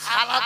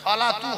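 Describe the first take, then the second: First: The word ends in a plain 'a' sound. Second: The word ends in an 'atu' sound. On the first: The speaker calls it wrong. "সালা তো হবে না" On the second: The speaker calls it right. "সলাতু হবে"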